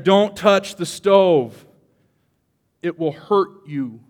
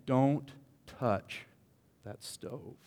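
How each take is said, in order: First: Slow, louder, higher stern mother warning; mother's warning. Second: Mother's warning. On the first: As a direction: drag it out like a mother scolding a child. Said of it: "It's a mother saying". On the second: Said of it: "A mother saying". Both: Retold or imitated.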